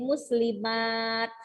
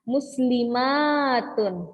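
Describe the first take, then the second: First: The word ends with a bare 't' sound. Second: The word ends with a full '-tun' ending. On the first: The reader stops on the word. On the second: The word is read joined to what follows.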